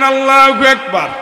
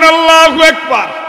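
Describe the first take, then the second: First: It is shouted even louder. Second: It is shouted at the loudest.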